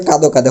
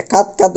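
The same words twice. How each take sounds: First: কাদো কাদো with o ending each word; final o sound. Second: কাত কাত with no vowel at the end; wrong pronunciation. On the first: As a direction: voice a clear ও after each d in কাদো কাদো. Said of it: "করতে হবে". (শেষে ও দিয়ে: কাদো কাদো) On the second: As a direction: stop each কাত on its consonant. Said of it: "উচ্চারণ করতে পারবো না". (ভুল উচ্চারণ: শেষে ও ছাড়া কাত কাত) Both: Shown as a demonstration.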